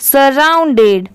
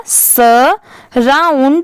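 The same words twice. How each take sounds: First: surrounded slowly but blended as one word; whole word, joined. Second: surrounded very slowly in parts, "sa... round... ed"; broken into syllables. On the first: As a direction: join "sa-round-ded" smoothly. (Surrounded को जोड़कर, धीरे से) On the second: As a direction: sound out surrounded piece by piece. (Surrounded को तोड़-तोड़कर, बहुत धीरे) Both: Shown as a demonstration. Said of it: "तो पूरा क्या हो जाएगा".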